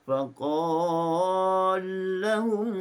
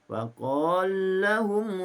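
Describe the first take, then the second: First: The merged vowel is held for four beats. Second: The merged vowel is held for two beats. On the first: "Empat harakat" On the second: "Dengan dua harakat"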